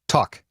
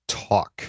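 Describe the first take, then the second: First: It is said a little faster. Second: It is said at a normal speed.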